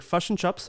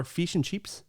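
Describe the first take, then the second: First: New Zealand "fish and chips" with uh vowels; New Zealand accent. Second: Australian "fish and chips" with ee vowels; Australian accent. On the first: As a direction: say "fish and chips" as "fush and chups". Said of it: "And New Zealand is". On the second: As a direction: say "fish and chips" as "feesh and cheeps". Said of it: "I believe Australian is". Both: Shown as a demonstration.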